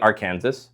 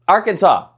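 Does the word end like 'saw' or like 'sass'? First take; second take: sass; saw. First: The word ends with a 'sass' sound. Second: The word ends with a 'saw' sound.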